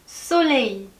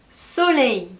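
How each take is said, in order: Both takes have the same delivery.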